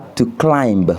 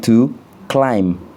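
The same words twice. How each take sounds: First: A b sound is pronounced at the end. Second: The word ends in m with no b. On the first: The speaker calls it wrong. "On ne dit pas" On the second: The speaker calls it right. "on dit to climb"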